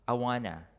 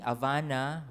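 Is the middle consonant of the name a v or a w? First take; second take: w; v. First: It begins with a vowel and has a w sound. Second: It begins with h and has a v sound. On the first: The driver understood it. The speaker calls it right. "they pronounce the name of the hotel as Awana" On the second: The driver could not understand it. The speaker calls it wrong. "with my Anglophone pronunciation"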